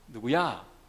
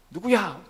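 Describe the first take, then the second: First: The name is called in a relaxed, easygoing way. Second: The name is called impatiently, with irritation.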